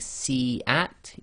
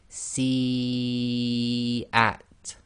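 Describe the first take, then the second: First: The vowel before the glottal stop is short. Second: The vowel before the glottal stop is held long. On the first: The speaker calls it wrong. "instead of saying" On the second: The speaker calls it right. "you'd recite si at. So for and then the at, for long"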